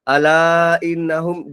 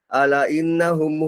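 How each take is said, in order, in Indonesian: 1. Vokal dalam 'ala' dibaca panjang. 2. Vokal dalam 'ala' dibaca pendek. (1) "ala patutnya panjang" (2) "Kan salah tu, ala patutnya panjang"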